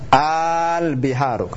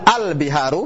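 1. Vokal pembukanya dipanjangkan. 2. Vokal pembukanya pendek. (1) "Maka mesti dipanjangin" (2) "seakan-akan tidak ada a-nya"

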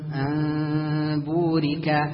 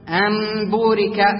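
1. الميم مُخفاة، الشفتان تقتربان فقط، مع غنة. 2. الميم إطباق شفوي تام وخالص. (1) "تبقي أثر الإخفاء والغنة" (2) "هذا خطأ"

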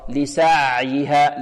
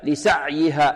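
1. العين بين الشدة والرخاوة. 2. العين تُقطع بشدة وإحكام. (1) "الصحيح أنها وسط بين الشدة وماذا؟ وبين الرخاوة" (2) "يقول هكذا لسعيها، ... خطأ"

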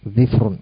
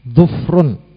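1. Konsonan pertama diikuti vokal i, konsonan kedua tidak. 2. Konsonan pertama diikuti vokal u, konsonan kedua tidak. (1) "mengkasrah huruf dhad dan mensukun huruf fa" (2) "Mendhamah huruf dhad dan mensukun huruf fa"

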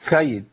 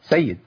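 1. صوت s فيه لثغة. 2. صوت s واضح. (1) "سيد في السي مثلا يقول لك ايه" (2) "هي اصلا ايه"

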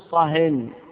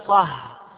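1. تنتهي الكلمة بصوت نون زائد. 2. تنتهي الكلمة بدون صوت نون زائد. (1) "أسكت مطلقا" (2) "إذا سلبته التنوين صار معرفة فتقول له صح"

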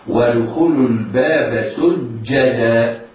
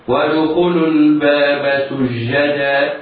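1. يُحبس صوت "j" فيوقف النفس والصوت. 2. يجري صوت "j" مع النفس والصوت. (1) "ينحبس النفس عند النطق هكذا" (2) "ينطقها خطأ هكذا"

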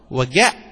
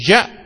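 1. الصامت الأول هو صوت الجيم القاسية. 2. الصامت الأول هو صوت الجيم الناعمة. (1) "نسميها مسهلة" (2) "نسميها معطشة"

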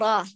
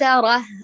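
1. الراء ثقيلة، مع حركة مفتوحة ممتلئة. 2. الراء خفيفة، مع حركة رقيقة. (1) "فخم الراء جيدا بتوجيه الصوت لقبة الحنك" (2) "ليس ره"

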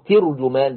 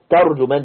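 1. المقطع الأول فيه الحركة i. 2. المقطع الأول فيه الحركة a. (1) "بكسر التاء" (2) "بفتح التاء"

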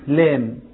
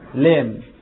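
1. تُنطق اللام مرقَّقة ونحيفة. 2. تُنطق اللام مرقَّقة ونحيفة.

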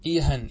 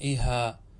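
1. تنتهي الكلمة بصوت النون. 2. تنتهي الكلمة بحركة الألف الطويلة.

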